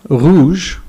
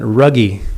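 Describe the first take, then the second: First: It is pronounced with French sounds. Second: It is pronounced with English sounds, syllable by syllable. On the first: "rouge uh, is red in English" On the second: "he would pronounce that ruggy, because he would just sound out the syllables"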